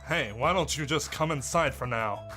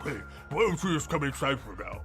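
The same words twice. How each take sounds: First: The voice sounds clear, without stuffed cheeks. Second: The voice sounds muffled, like stuffed cheeks. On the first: "We can still do the voice!" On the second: "I talk like I have something in my cheeks"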